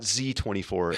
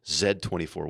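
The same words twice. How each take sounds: First: The letter is said the American way, zee. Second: The letter is said the Canadian way, zed.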